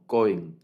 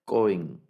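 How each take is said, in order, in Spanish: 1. El acento está en la primera sílaba. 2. El acento está en la primera sílaba.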